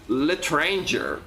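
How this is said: It is said with an American English accent. "Americans pronouncing words from other languages"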